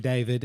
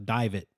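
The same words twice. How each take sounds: First: Said in the usual way. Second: "David" ending in a hard T; T-ended name. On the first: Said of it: "Like, with a T on the end". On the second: Retold or imitated. Host recalls an old acquaintance, "David" said with a T ending. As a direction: say "David" with a final T for the D. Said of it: "with a T on the end".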